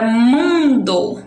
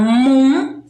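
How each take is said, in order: First: "mundo" stretched slowly, still joined as one word; elongated "mun-do" without a break; drawn-out word. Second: "mundo" as "muuun... do", with a clear pause between; "mun", rising, then a separate "do"; split into syllables. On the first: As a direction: say "mundo" long and deliberate, both syllables held. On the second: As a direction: break "mundo" into two held beats. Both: Shown as a demonstration. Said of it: "eu consigo dividir em duas sílabas".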